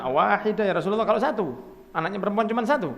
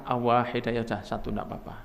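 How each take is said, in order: First: Higher-pitched pleading question; anxious questioner. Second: Low, softening, accepting answer; calm reassurance. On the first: Follower asking the Prophet about having one daughter, high pleading voice. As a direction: ask it high, as a hopeful follower. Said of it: "Satu lagi mengatakan". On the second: Prophet answering the follower that one is fine, calm reassurance. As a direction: settle the worry, low and easy. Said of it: "Rasulullah mengatakan". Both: Acted.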